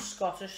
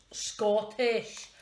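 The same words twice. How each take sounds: First: Said in the usual way. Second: Attempted Scottish accent, leaning hard on the word; amateur Scottish accent, louder and exaggerated. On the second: Shown as a demonstration. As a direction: have a shaky go at a Scottish accent. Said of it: "not very good at doing the accent".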